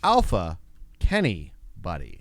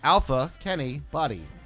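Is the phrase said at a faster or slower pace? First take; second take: slower; faster. First: The phrase is said slowly and drawn out. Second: The phrase is said at a normal pace.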